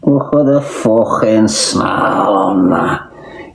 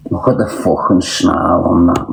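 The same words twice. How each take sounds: First: Drawn out very slowly, savouring each word; slowly savoured brag about the snarl; slow, dragged-out boast. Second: Said in the usual way. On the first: Shown as a demonstration. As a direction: stretch it out like a proud showoff. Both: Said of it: "Do you wanna see me snarl?".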